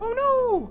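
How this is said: It is said in a Mickey Mouse voice.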